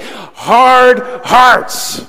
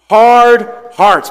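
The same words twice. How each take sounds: First: It is said in a nasty, grunting voice. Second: It is said in a plain, ordinary voice. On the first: "say it real nasty, like you're grunting" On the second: "Everyone say it with me"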